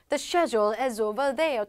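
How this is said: It is said in a British accent.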